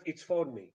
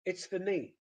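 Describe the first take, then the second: First: "for" given its full vowel; "it's for me" with "for" fully pronounced; strong form. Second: "for" reduced to a short "fə"; "It's for me" with "for" unstressed; weak form. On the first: Lecturer showing what to avoid, full strong "for". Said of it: "instead of". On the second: Lecturer showing weak forms, "for" reduced. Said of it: "So those weak forms". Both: Shown as a demonstration.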